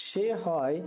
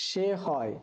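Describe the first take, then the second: Both takes have the same delivery.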